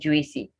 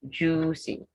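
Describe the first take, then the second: First: The first vowel is split into two sounds. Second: The first vowel is a single oo sound. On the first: The speaker calls it wrong. "so it's not juicy" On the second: The speaker calls it right. "you have the U I given the U sound"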